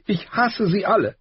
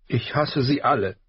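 First: Put-on much higher and louder, bitter girl; tearful hate. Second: Put-on higher, bitter sniffling girl. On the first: Arya repeating her hatred to her father, higher and louder. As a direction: hurl it out through tears. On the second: Arya confessing hatred to her father, sniffling. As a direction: spit it out through sniffles. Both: A narrator's reading.

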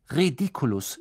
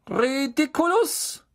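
First: Said in the usual way. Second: Ridiculus called out slow, high and drawn out; spell demo. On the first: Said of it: "sagte die Klasse wie aus einem Mund". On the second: Shown as a demonstration. Teacher demonstrates Ridiculus for pupils to repeat. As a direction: pronounce Ridiculus slowly as a model for the class. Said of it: "nach mir bitte".

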